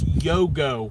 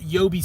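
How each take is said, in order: First: The name ends with a 'go' sound. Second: The name ends with a 'bee' sound. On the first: The speaker calls it right. "It's Yogo" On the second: The speaker calls it wrong. "It's not Yobi Sapphires"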